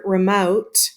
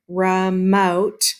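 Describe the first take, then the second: First: Said in the usual way. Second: "remote" divided into two distinct beats; split into syllables. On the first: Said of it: "when we have this word remote". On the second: Shown as a demonstration. Teacher showing pupils two syllables, "remote" in two parts. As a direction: separate "remote" after its first syllable. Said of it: "is two syllables".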